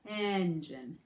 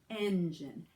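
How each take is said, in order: No difference in how they are said.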